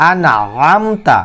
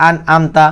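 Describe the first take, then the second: First: "আনআমতা" slow, with a hard squeezed ayn; mid-throat ayn. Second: "আনআমতা" with a plain a, no throat; missing ayn mistake. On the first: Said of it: "এই আইন উচ্চারিত হয়". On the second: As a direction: say "আনআমতা" unstretched, as the error. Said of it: "যদি আপনারা বলেন". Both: Shown as a demonstration.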